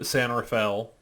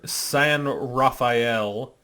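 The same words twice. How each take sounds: First: The name is said with lazy American pronunciation. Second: The name is said with Spanish pronunciation. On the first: This is how the locals actually said it. "Everything had this very Americanized pronunciation to it" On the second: This is the name as it is written. "on paper"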